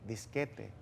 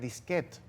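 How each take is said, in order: First: The word ends with a pronounced final t-syllable. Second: The word ends without a pronounced final t-syllable. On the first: This follows the Spanish norm. "la norma del español pronuncia T" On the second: This is the older borrowed form. "era disquete"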